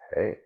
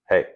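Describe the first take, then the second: First: The word is said very softly and quietly. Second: The word is said loudly and firmly.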